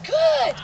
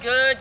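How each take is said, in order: First: It is said with lively, dramatic energy. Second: It is said in a flat monotone. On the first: The praise stands out as a reward. The speaker calls it right. "your real dramatic response with the praise" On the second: The praise does not stand out. The speaker calls it wrong. "if you just kind of monotone"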